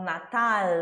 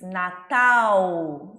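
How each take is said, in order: First: The final L is a clear tongue-tip L. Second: The final L is vocalized like a U. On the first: "e não Natal" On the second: "A gente diz Natal"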